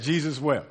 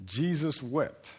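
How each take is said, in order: First: Said in the usual way. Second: Slow, hushed, weighty reading of "Jesus wept"; grave, drawn-out scripture line; solemn slow reading. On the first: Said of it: "ninety percent of us said". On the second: Acted. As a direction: let "Jesus wept" land slowly and quietly.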